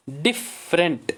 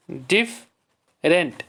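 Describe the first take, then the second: First: Said in the usual way. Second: "different" slow, split as डिफ, rent; syllable by syllable. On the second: Shown as a demonstration. Teacher showing two syllables to the class, syllable by syllable. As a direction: leave a clear gap inside "different". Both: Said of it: "इसमें भी दो syllable हैं".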